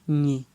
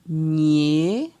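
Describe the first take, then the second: First: The syllable is said on a low tone. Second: The syllable is said on a rising tone. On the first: "Ton bas" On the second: "Ton euh, montant"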